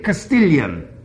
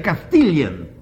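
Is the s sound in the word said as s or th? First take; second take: s; th. First: The word is said with a clear s sound. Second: The word is said with a lisped th sound. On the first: "He couldn't say Castilian" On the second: "He would say Castilian. Everything was th-th-th"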